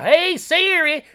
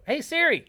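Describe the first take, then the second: First: A slow, much higher, louder Southern call; heavy Southern accent. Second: A much higher, louder put-on call; mock Southern Ryan. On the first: Retold or imitated. Host trying heavy Southern on Siri, slow and high. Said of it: "I tried heavy Southern". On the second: Host imitating Ryan trying to wake Siri. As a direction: impersonate a friend calling the phone. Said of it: "I'd try to go".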